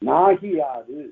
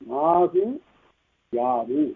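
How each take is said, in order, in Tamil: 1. ஒரே சொல்லாக இணைந்து, மிகக் குறுகிய இகரத்துடன். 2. தனித்தனியான இரண்டு சொற்கள், முதலாவது உகரத்தில் முடியும். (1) "வருகின்ற இகரமும் குறுகி ஒலிக்கும்" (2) "நாகு கூட்டல் யாது"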